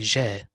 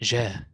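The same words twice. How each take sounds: The two takes are said the same way.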